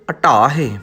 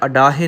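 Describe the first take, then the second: First: The middle consonant is the dh (ਢ) sound. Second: The middle consonant is a plain d sound. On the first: The speaker calls it right. "ਢੱਡਾ ਲਾਉਣਾ ਹੈ" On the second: The speaker calls it wrong. "ਅਡਾਹੇ ਨਹੀਂ ਕਹਿਣਾ"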